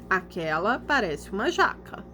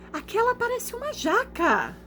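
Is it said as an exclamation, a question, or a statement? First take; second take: statement; exclamation. First: It is said with flat statement intonation. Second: It is said with strong exclamatory intonation. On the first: "eu vou ler parecendo uma, uma resposta" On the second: "ponto de exclamação. Então eu tenho que ler como?"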